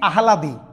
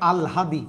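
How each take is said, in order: First: The h sound comes before the l. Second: The l sound comes before the h. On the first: The speaker calls it wrong. "এখানে লিখছি আহলাদি, ভাইয়া না" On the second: The speaker calls it right. "এটা উচ্চারণ হবে আলহাদি"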